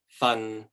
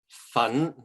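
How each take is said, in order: First: The syllable carries Cantonese tone six. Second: The syllable carries Cantonese tone two. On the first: It means a portion. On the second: It means powder.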